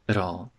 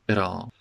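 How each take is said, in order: First: The T is said as a quick tap. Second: The T is said as a quick tap.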